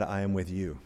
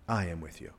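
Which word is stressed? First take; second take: with; I. First: The stress is on "with". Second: The stress is on "I".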